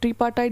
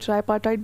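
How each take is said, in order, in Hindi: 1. पहला अक्षर 'tree' जैसा सुनाई देता है। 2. पहला अक्षर 'try' जैसा सुनाई देता है। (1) "ट्रीपार्टाइट भी बोलते हैं" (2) "कोई ट्राईपार्टाइट बोलते हैं"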